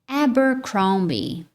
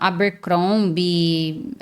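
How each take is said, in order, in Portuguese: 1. Ela é dita com sotaque nativo do inglês. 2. Ela é dita com sotaque do português brasileiro. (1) "o mais natural é" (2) "já ouvi brasileiros falando"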